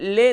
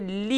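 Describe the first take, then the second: First: The syllable is said with an 'e' vowel. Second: The syllable is said with an 'i' vowel. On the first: The speaker calls it wrong. "ले ले नहीं होगा" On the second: The speaker calls it right. "बल्कि ली होगा"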